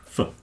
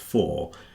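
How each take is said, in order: First: The word is cut to a weak reduced sound. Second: The word is said with its full vowel. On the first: "They say f" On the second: "everyone knows it's pronounced for"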